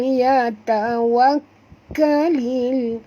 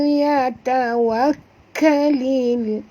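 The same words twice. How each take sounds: Both takes have the same delivery.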